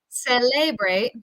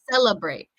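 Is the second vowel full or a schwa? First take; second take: full; schwa. First: The second vowel is a full vowel. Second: The second vowel is reduced to a schwa. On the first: The speaker calls it wrong. "instead of saying celebrate or celebrate" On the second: The speaker calls it right. "we say cella, uh, that second E there"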